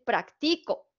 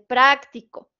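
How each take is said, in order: First: The stress is on the second syllable. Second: The stress is on the first syllable. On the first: "si yo se la pongo en la siguiente" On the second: "tiene la sílaba tónica en pra"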